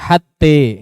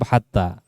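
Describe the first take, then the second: First: The final vowel is bent toward e. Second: The final vowel stays a plain a. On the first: The speaker calls it wrong. "tidak dibaca hatte" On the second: The speaker calls it right. "Hatta tetap hatta"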